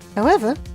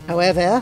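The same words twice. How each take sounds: First: It is said without a French accent. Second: It is said with a French accent.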